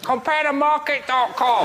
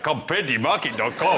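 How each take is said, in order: First: It is said in a put-on Chinese accent. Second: It is said in a put-on Nigerian accent. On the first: "if those meerkats had Chinese voices" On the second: "if it was Nigeria"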